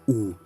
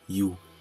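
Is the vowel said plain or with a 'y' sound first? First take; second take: plain; y sound. First: A plain 'oo' vowel with no glide. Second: A 'y' glide comes before the 'oo' vowel. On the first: The speaker calls it right. "It is u" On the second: The speaker calls it wrong. "not you"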